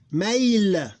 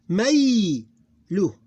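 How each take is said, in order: First: Mail high and loud, long glide closed on L; sukoon ending. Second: Maylu loud and high, long "may" then "lu"; diphthong, open ending. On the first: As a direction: draw out Mail with no vowel after L. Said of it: "Because this become sukoon". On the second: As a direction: glide through "may" in Maylu and add "lu". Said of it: "This is diphthong". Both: Shown as a demonstration.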